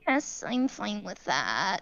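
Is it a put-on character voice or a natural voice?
put-on. It is said in a put-on Emberlyn voice.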